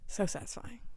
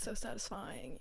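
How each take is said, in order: First: It is said with a pleased, contented tone. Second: It is said with a cringing, uncomfortable tone. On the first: The speaker calls it right. "I meant to be like" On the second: The speaker calls it wrong. "Why did I cringe like that?"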